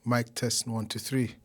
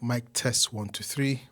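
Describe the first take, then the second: Both takes have the same delivery.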